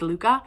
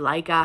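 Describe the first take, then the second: First: The name is pronounced the Danish way. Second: The name is pronounced the common English way. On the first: This is the original pronunciation. The speaker calls it right. "correct pronunciation is Luca. Hear me talk Danish too" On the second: This is how most people say it. The speaker calls it wrong. "how everybody says it"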